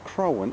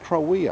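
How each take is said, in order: First: The name ends with an n sound. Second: The name ends with a vowel sound. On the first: The speaker calls it wrong. "It's not Crowan" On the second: The speaker calls it right. "it's Crowea"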